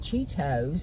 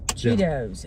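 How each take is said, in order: First: The middle consonant sounds like a T. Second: The middle consonant sounds like a D. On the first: This is how the speaker says it. "And I say Cheetos" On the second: This is how other people say it. "I think people say it with a D"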